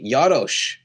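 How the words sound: The name is said with an Eastern European pronunciation. This is how the name is said in its home region. "an Eastern European pronunciation of my last name"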